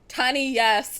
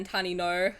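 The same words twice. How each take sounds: First: Loud, emphatic comeback on YES; defiant. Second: Said in the usual way. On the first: Real, not acted. Gamer overruling warnings about taking a loan, defiant.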